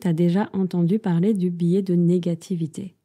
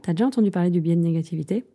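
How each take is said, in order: First: The sentence is said at a slower pace. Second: The sentence is said at a faster pace.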